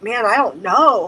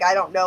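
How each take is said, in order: First: It is said with strong emotion. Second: It is said flatly, without emotion.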